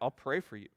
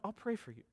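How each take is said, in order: First: It sounds mocking and insulting. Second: It sounds warm and sincere.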